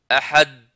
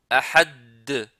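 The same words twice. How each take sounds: First: The final d is barely heard at all. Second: The final d is pressed and held. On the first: "on n'entend pas d'elle" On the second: "il reste à appuyer sur cette lettre-là"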